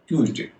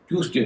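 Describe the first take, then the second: First: The middle consonant is a z sound. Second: The middle consonant is an s sound. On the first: The speaker calls it right. "तो उसका उच्चारण हो जाए ज" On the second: The speaker calls it wrong. "ट्यूजडे नहीं होगा"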